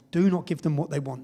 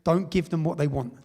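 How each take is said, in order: First: Repeated with emphasis on Do not; firm stress on Do not. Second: Said in the usual way. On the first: Retold or imitated. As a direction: hammer the "Do not" as a warning. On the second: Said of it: "No anger".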